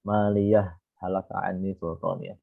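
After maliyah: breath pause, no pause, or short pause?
no pause. It runs straight through with no stop. The speaker calls it wrong. "kita labas semuanya. Nggak boleh"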